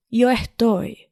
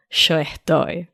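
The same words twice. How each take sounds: First: Yo estoy with a clean y, jo estoy; non-Argentine Spanish accent. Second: Yo estoy said sho estoy, Argentine sh; Argentine accent. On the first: Host contrasts standard with Argentine Spanish, neutral accent. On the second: Host shows the Argentine version to listeners, Argentine accent. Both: Shown as a demonstration. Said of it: "Argentine over here".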